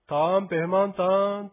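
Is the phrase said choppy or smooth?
smooth. The syllables flow together without breaks. The speaker calls it right. "一個一個区切らなくても、こういう感じの方がよろしいかと思います"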